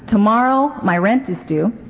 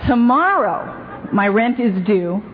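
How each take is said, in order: First: The phrase is said quickly. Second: The phrase is said slowly and deliberately.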